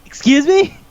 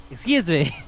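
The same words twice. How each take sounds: First: High-pitched, rising "Excuse me?"; mock disbelief. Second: Softer, falling "Excuse me"; deadpan disbelief. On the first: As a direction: react as if scandalized, voice shooting up. Acted shocked reaction to movie line. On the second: Acted. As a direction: let the outrage drop to a quiet statement. Same reaction repeated, dropping down.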